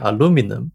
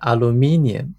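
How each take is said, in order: First: It is said with an American pronunciation. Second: It is said with a British pronunciation.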